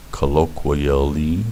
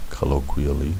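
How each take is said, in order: First: "colloquially" stretched out with a rising end; careful tongue-twister. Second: Said in the usual way. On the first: Shown as a demonstration. Teacher retries a tricky word, careful tongue-twister. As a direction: work through "colloquially" syllable by syllable. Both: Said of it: "say that five times fast".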